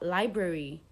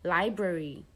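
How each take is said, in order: First: The A sound is said weakly. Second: The same.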